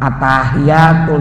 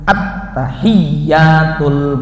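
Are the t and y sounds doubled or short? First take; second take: short; doubled. First: The t and y sounds are short, not doubled. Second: The t and y sounds are held doubled. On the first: The speaker calls it wrong. "bukan atahiyatul" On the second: The speaker calls it right. "tapi at-tahiyyatul"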